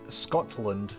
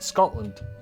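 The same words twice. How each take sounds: First: The T is pronounced as a full T. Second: The T is replaced by a glottal stop. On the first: "replacing a hard T or T sound" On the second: "we would say Scotland"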